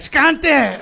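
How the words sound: It sounds like a drug user begging.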